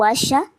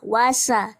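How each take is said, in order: First: The consonant after 'wa' is a 'sh' sound. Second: The consonant after 'wa' is an 's' sound. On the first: The speaker calls it wrong. "bukan wasya" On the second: The speaker calls it right. "ujung lidah ke dinding gigi seri bawah"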